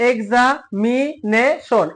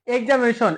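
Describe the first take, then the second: First: Very slow "এক্সামিনেশন", pausing after each syllable. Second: Said in the usual way. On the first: Shown as a demonstration. Teacher showing students the parts of এক্সামিনেশন, syllable by syllable. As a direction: separate every syllable of "এক্সামিনেশন". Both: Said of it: "এটাতেও চারটা আছে".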